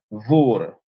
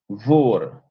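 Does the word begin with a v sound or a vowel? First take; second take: v sound; v sound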